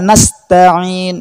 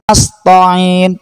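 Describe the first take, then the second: First: The t sound is light and plain. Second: The t sound is heavy, like 'to'. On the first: The speaker calls it right. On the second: The speaker calls it wrong. "Ta tidak boleh berubah menjadi to"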